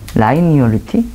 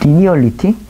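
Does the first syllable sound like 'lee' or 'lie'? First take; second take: lie; lee. First: The first syllable sounds like 'lie'. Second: The first syllable sounds like 'lee'. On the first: "발음을 모르겠네" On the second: "리니얼리티일 거예요"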